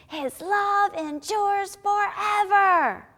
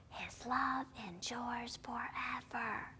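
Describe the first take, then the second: First: High, slow, drawn-out shout; rousing shout, stretching each word; loud shout. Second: Slow, hushed whisper; very soft, drawn-out words. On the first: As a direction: belt out the verse as loud as you can. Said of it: "as loud as you can". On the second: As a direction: whisper the verse as quietly as possible. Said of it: "let's whisper". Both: Shown as a demonstration.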